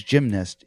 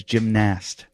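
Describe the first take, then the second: First: Said in the usual way. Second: Gymnast as "jim-NAST"; imitated odd pronunciation. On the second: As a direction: say gymnast with a full, stressed "nast". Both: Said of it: "the way he pronounces gymnast".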